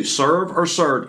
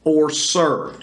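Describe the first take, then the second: First: "serve or served" said slowly, each word stressed; slow emphatic repeat. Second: Said in the usual way. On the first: Shown as a demonstration. Pastor slowing down so listeners count serve, each word stressed. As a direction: lean on "serve" and "served", spelling them out for the listeners. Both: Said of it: "listen to how many times you hear the word serve".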